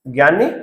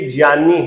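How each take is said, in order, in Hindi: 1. यह शब्द 'gy' की आवाज़ से शुरू होता है। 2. यह शब्द 'jny' की आवाज़ से शुरू होता है। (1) "ज्ञानी नहीं, ये ज्ञानी नहीं है।" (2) "इसका सही उच्चारण यदि आप करना चाहें, शुद्ध उच्चारण करना चाहें"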